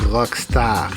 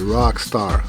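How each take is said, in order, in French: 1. Rockstar se prononce avec un accent français. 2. Rockstar se prononce avec un accent anglais. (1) "c'est pas rockstar" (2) "c'est rockstar en anglais"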